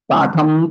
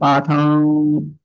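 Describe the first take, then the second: First: It ends with closed lips, a full m sound. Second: It ends with open lips, a nasalized vowel. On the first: Another word follows without a break. "वहां close हो जाएंगे ओष्ठ भाग" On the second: Nothing follows the word. "दोनों ओष्ठ खुले रहेंगे, पाठम ऐसा रहेगा"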